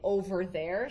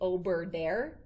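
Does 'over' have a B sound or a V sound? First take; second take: V sound; B sound. First: The word over is said with a V sound. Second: The word over is said with a B sound. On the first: The speaker calls it right. "instead of saying over there" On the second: The speaker calls it wrong. "she'll always say ober there"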